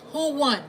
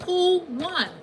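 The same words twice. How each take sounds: First: Said in the usual way. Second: Higher and louder Who won; triumphant Who won, raised and loud; emphatic repeat. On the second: Shown as a demonstration. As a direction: push Who won up hard the second time.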